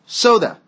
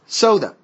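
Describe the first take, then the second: Both takes have the same delivery.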